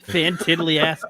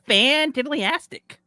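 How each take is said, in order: First: It is said in a plain, ordinary voice. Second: It is said flamboyantly, like Ned Flanders.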